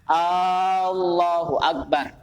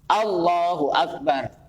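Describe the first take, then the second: First: The opening vowel of Allahu is drawn out long. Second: The opening vowel of Allahu is short. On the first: The speaker calls it wrong. "Tapi ini dipanjangkan" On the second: The speaker calls it right. "A-nya pendek kan?"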